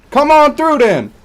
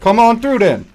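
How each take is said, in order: First: Much higher, louder dare, going over the top; mock street tough, peaking. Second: Higher, louder dare; mock street tough. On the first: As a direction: push the challenge even harder. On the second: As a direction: call them out, challenging. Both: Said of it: "a little more urban".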